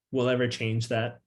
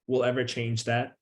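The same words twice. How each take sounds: The two takes are said the same way.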